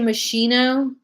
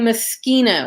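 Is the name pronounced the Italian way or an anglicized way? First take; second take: anglicized; Italian. First: The name is said with an anglicized pronunciation. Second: The name is said with an Italian pronunciation. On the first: This is how many people commonly say it. The speaker calls it wrong. "a lot of people mispronounce it and they say Moschino" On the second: This is how Italians say it. The speaker calls it right. "in Italian, you're going to say Moschino"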